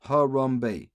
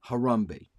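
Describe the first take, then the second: First: Three clear syllables in "Harambe". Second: Said in the usual way. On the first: Shown as a demonstration. Viewers hear him spell out Harambe's three syllables, deliberately. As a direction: say "Harambe" slowly as ha-ram-be. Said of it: "Three syllables, one word". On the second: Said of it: "one word".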